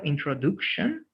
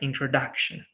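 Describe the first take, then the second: First: The middle 'duc' syllable has a full vowel. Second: The middle 'duc' syllable has a weak vowel. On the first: The speaker calls it wrong. "instead of introduction" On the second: The speaker calls it right. "that do sounds like the"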